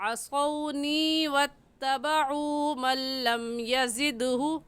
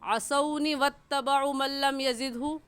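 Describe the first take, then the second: First: The long vowels are stretched out. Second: The long vowels are cut short. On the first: The speaker calls it right. "सही है ... असौनी को हम खींचेंगे और ऐसे ही वत्तबउ को भी खींचेंगे" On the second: The speaker calls it wrong. "गलत है"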